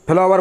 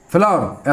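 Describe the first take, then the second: First: Teacher demonstrating the wrong फ्लावर, three syllables, i-sound slipped after the फ; फ्लावर spoken as phi-laa-var, a mistake to avoid; common wrong pronunciation. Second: Teacher modelling the correct फ्लावर, two syllables, flaa-ur; फ्लावर said as flaa-ur, the w heard as a vowel; correct pronunciation. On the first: Teacher to students, showing the common mistake, wrong pronunciation. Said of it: "अधिकांश बच्चे फ्लावर बोलते हैं". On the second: Teacher to students, modelling the dictionary form, correct pronunciation. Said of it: "सही उच्चारण ये रहेगा आपका".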